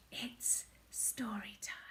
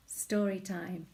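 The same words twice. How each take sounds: First: Soft, unvoiced whisper. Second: Said in the usual way. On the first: Shown as a demonstration. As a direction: whisper it like a secret.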